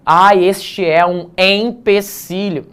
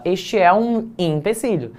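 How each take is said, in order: First: Ah, este é um empecilho said slowly, each letter spelled out; over-articulate empecilho, syllable by syllable; overcareful pronunciation. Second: Said in the usual way. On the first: Shown as a demonstration. Teacher mocking students who say empecilho exactly as written. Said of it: "Ninguém precisa ficar dizendo". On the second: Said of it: "Você fala".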